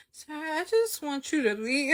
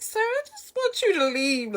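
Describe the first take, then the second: First: High-pitched wish to be rid of someone; pleading complaint. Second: Very high, whiny silent plea; desperate inner plea. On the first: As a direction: plead inwardly in a higher voice. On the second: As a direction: beg in a squeaky, much higher voice. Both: Retold or imitated. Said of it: "In my head, I'm like".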